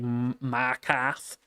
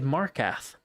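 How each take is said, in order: First: The name is said in a Boston accent. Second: The name is said in a standard accent. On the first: The difference comes only from a regional accent. "like he's from Boston" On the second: The name is simply mispronounced. "He just straight up said it wrong"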